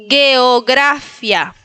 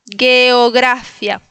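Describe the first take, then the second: Both takes have the same delivery.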